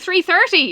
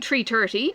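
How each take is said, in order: First: Both words begin with a th sound. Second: Both words begin with a plain t sound. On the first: "I'm putting in the th" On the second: "I'm not saying three thirty"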